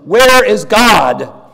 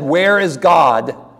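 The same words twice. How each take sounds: First: It is said in a stronger, louder tone. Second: It is said at a moderate volume.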